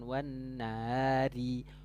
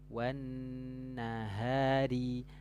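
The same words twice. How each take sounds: First: The h sound is faint and barely audible. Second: The h sound is clear, flowing from the throat. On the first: The speaker calls it wrong. "Nggak ada suara haknya, itu tidak jelas ya" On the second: The speaker calls it right. "cukup dari tenggorokan saja ya"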